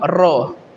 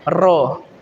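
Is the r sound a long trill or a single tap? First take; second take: long trill; long trill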